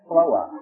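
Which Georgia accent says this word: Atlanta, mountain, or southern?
southern. It is said without an R sound. The speaker is from southern Georgia. "In the southern part of Georgia, it's pronounced Floa. No R in the word"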